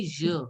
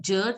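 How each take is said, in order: First: "je" with a soft French zh, as "zhuh". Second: "je" with a hard English J, as "dʒə". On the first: Teacher correcting a student, "je" with soft zh. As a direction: start "je" like the s in "measure". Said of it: "try to say je". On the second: Teacher showing students the sound to avoid, "je" with hard J. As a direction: say "je" wrongly, starting like "jug". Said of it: "Instead of je, try to say". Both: Shown as a demonstration.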